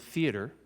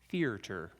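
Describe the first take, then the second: First: The word is said without an extra R sound. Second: The word is said with an extra R sound. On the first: The speaker calls it right. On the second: The speaker calls it wrong.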